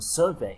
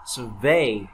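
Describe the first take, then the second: First: The stress is on the first syllable. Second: The stress is on the second syllable. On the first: It is a noun meaning a survey. "còn survey đó là cuộc khảo sát" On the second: It is a verb meaning to survey. "survey đó là cái động từ khảo sát"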